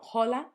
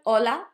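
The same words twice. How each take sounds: First: The first letter h is pronounced. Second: The first letter h is silent. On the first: The speaker calls it wrong. "not hola" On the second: The speaker calls it right. "it doesn't have a sound"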